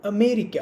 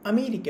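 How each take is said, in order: First: Barely touch the അ in America, then hit മേരിക്ക; stress after first syllable. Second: Said in the usual way. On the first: Shown as a demonstration. Teacher showing students stressed and unstressed syllables, America stressed after the first അ. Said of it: "ബാക്കിയുള്ളതിനാണ് stress". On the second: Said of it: "for example".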